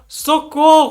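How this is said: It is shouted as a cry for help.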